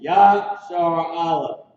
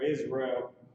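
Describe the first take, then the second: First: The name is said as two words, ya-shar a-leph. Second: The name is said the English way, iz-ree-ul. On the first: The speaker calls it right. "It's Yashar Aleph" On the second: The speaker calls it wrong. "Or Israel"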